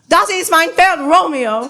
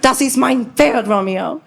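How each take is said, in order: First: The stress falls on the word Romeo. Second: The stress falls on the word Pferd.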